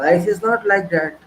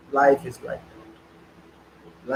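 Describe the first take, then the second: First: Said in the usual way. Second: Very slow, lower, quieter, drawn out; mock resigned sigh. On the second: Mocking the excuse before correcting it, slow and resigned. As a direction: sound like someone giving up on life. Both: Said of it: "Very simple excuse".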